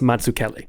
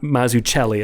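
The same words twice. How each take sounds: First: The name is pronounced in an Italian way. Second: The name is pronounced in an anglicized way. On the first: The speaker calls it right. "I got to pronounce it correctly. He's Italian" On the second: The speaker calls it wrong. "It's not Mazzucchelli"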